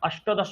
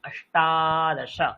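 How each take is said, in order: First: The vowel after 'asht' is short. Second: The vowel after 'asht' is long. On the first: The speaker calls it wrong. "अष्टदश হয় না" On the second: The speaker calls it right. "খেয়াল রাখবেন আকার হয়"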